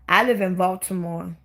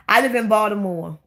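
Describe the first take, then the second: First: Baltimore with a clear L and a crisp T; careful pronunciation. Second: Local Baltimore accent, dropping the L. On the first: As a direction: say "Baltimore" fully, as BAWL-tuh-more. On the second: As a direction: say Baltimore the local way, like "Baw-duh-more". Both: Shown as a demonstration. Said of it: "we got the worst accent".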